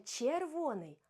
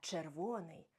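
First: The first consonant is softened. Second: The first consonant is hard. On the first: The speaker calls it wrong. "не «червоний»" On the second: The speaker calls it right. "а «червоний»"

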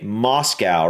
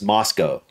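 First: It is said with an American pronunciation. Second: It is said with a British pronunciation. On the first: "I would s- generally say Moscow" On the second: "I'm going to guess you guys would pronounce this Moscow"

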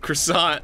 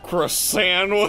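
First: The word is said in a plain, neutral way. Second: The word is said with a sneering, disgusted tone.

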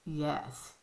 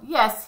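First: It is said flatly, without enthusiasm. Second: It is said with some enthusiasm.

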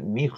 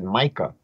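First: The name is said the Hebrew way. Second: The name is said the English way. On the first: This is the original form of the name. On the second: This is how Christians say the name.

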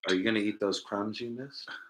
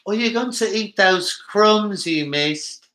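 First: It is said in his normal American accent. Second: It is said in a put-on British accent.

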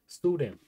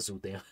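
First: The first vowel is an oo sound. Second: The first vowel is not an oo sound. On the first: The speaker calls it right. "Pronounce the O like zoo" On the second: The speaker calls it wrong. "Not Sudam"

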